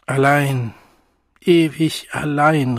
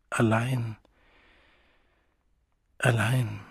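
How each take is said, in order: First: Laut und klagend gerufen; Ausruf. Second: Leise, nachklingend wiederholt; leise Echo. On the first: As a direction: ein verzweifelter Ruf in die Nacht. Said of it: "rief der junge Wilde". (der junge Wilde ruft seine Einsamkeit hinaus) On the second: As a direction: ein Echo in der eigenen Brust. Sigmund echoes it inwardly. (Sigmund wiederholt es leise für sich) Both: A narrator's reading.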